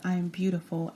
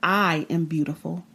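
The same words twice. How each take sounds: First: It is said timidly, without confidence. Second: It is said firmly, with confidence. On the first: The speaker calls it wrong. "That's not really saying it with confidence" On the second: The speaker calls it right. "I would say"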